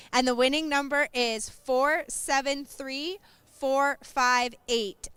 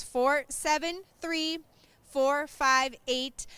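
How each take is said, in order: First: Slow, clear number call; raffle caller. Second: Very slow, careful number repeat; raffle caller. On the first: Announcing the raffle number slowly. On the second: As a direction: spell out each digit slowly. Repeating the number even slower. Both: Real, not acted.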